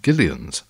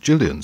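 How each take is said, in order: First: It is said like an old man's name. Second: It is said like the woman's name Gillian. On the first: This is the more likely original way to say the name. The speaker calls it right. "it should be pronounced Gillian's, a man's name" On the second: This is the modern way to say the name. The speaker calls it wrong. "the modern pronunciation is Gillian's, suggesting a female name"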